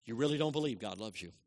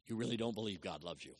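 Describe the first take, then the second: First: "don't" pressed firmly, the line at full voice; stress on don't. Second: Said low and soft, "really" leaned on; a hushed first telling; quiet. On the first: Preacher repeats it firmly, hitting "don't". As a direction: drive the word "don't" home. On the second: Preacher quietly confronts listeners with their unbelief. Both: Shown as a demonstration. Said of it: "repeated for weight".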